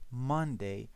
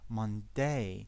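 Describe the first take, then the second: First: The stress is on the first syllable. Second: The stress is on the second syllable. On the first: The speaker calls it right. "The stress is on the first syllable" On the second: The speaker calls it wrong. "We don't say Monday"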